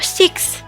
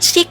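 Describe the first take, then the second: First: The word ends with a final s sound. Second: The word ends without a final s sound. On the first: It means the number six. The speaker calls it right. "six-nya ada S-nya, kalau enam itu six" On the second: It means being ill. The speaker calls it wrong. "jangan six, kalau six sakit"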